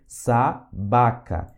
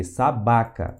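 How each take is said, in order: First: SABACA drawn out slowly, split into syllables. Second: Said in the usual way. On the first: Shown as a demonstration. Teacher modelling a Russian word for beginners, SABACA syllable by syllable. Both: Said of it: "Tem som de S aqui".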